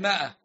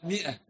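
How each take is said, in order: First: The word is said with a long aa sound. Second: The word is said with a short i sound. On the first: The speaker calls it wrong. "ما هي مائة" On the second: The speaker calls it right. "هذا الأليف لا ينطق"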